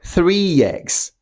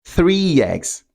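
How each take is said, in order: First: A y sound links the two words together. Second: The same.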